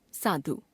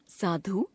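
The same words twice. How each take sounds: First: Said in the usual way. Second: साधु ending on long ऊ, rising; wrong pronunciation. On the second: Shown as a demonstration. Teacher showing a common error, साधु with long last vowel. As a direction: stretch धु to धू in साधु. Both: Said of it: "अशुद्ध".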